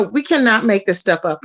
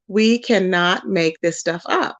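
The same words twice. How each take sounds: First: Said in the usual way. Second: Slow, deliberate, word by word; drawn-out, lower-pitched insistence; slow emphasis. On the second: Real, not acted. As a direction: spell it out slowly in disbelief. Repeats the line slowly for emphasis.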